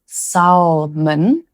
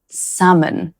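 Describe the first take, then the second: First: Salmon said with the L sounded, SAL-mun; salmon with a clear L, SAL-mun, slowly; wrong salmon. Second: Salmon with a silent L, SAM-un; correct salmon. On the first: Teacher shows the mistaken salmon. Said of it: "so it's not pronounced". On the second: Teacher models the right salmon. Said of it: "it's pronounced". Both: Shown as a demonstration.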